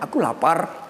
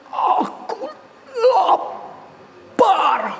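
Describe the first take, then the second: First: It is said plainly, without strong emotion. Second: It is said angrily, with strong emotion.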